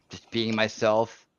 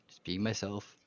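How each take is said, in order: First: Slow and drawn out. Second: Softly under the breath; quiet murmur. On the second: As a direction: let it fall away quietly. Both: Shown as a demonstration. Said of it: "repeats it differently".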